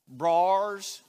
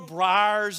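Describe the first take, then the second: First: It is said in a Southern accent. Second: It is said in a standard accent.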